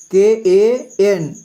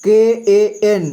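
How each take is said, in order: First: Slow spelling. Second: Said in the usual way. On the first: Shown as a demonstration. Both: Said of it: "कंग का".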